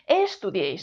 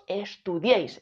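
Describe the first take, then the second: First: The stress falls before the last syllable. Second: The stress falls on the last syllable. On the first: The speaker calls it wrong. "no decimos" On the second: The speaker calls it right. "decimos estudiéis, el golpe de voz está aquí"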